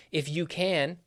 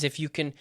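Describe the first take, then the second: First: CAN with a full, long A; stressed CAN. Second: CAN weak and quick, like "kn"; reduced CAN. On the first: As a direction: lean on CAN. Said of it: "there are exceptions". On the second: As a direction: swallow the vowel in CAN. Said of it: "notice I just said it". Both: Shown as a demonstration.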